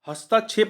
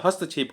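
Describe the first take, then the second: First: हस्तक्षेप with a long ता, stretched as हस्ता; हस्तक्षेप said the mistaken way, with a long aa; wrong form. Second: हस्तक्षेप with a short त, no aa; हस्तक्षेप said cleanly with a short ta; correct form. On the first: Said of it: "हस्तक्षेप नहीं होता". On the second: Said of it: "हस्तक्षेप होता है". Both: Shown as a demonstration.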